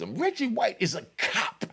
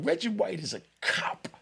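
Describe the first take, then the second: First: It is said with strong, forceful emphasis. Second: It is said plainly, without extra force.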